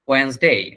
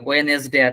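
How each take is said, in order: First: Two syllables with the middle syllable dropped. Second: Three syllables with no 't' sound in the middle. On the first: The speaker calls it right. "এটার উচ্চারণ হচ্ছে ওয়েন্সডে" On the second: The speaker calls it wrong. "But ওইটা না"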